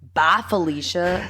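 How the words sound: It is said in an exaggerated, dramatic way.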